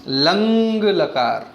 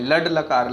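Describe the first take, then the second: First: The first word ends in a nasal sound. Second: The first word ends in a d sound. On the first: The speaker calls it right. "ल मुंह से और अंग नाक से" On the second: The speaker calls it wrong. "काफी बच्चे इसको डे बोलते हैं। लड लकार, लड लकार नहीं बोलना"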